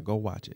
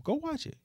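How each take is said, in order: First: Said in the usual way. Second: Playful high urging. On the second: Shown as a demonstration. Closing push to watch.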